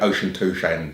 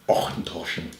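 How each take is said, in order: First: The first part sounds like the word 'ocean'. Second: The first part sounds like 'ochen', not 'ocean'. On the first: The speaker calls it wrong. "that's that's well off" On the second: The speaker calls it right. "Auchentoshan is the pronunciation"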